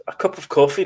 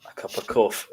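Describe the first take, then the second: First: "A cup of coffee" a bit higher and louder, politely; polite customer. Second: Said in the usual way. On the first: Shown as a demonstration. Ordering at a shop counter, brightly polite.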